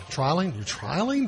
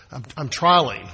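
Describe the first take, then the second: First: Doubtful questioning. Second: Said in the usual way. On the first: Shown as a demonstration. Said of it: "that's not good English". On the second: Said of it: "Didn't work".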